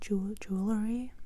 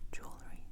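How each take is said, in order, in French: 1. Le mot se prononce en trois syllabes. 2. Le mot se prononce en deux syllabes. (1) "aux États-Unis, c'est différent"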